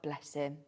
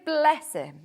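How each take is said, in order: First: Gentle, affectionate aside; fond bless him. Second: Said in the usual way. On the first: Shown as a demonstration. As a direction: bless him said much softer and lower, fondly. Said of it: "it makes it always sound like, okay". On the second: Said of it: "if you say".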